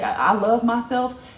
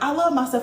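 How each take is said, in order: First: It is said hesitantly and earnestly. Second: It is said quickly and carelessly.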